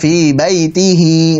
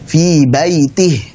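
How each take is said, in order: First: The final ha is followed by a short i vowel. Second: The final ha is said without a following vowel. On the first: The speaker calls it wrong. "Bukan fi baitihi, begitu bukan" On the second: The speaker calls it right. "Tapi fi baitih. Ini karena wakaf berhenti"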